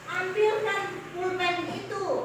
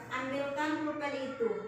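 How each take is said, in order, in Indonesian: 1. Suaranya naik menjelang akhir. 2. Suaranya tetap datar menjelang akhir. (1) "suara intonasinya harus naik" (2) "Benar atau salah itu? Salah"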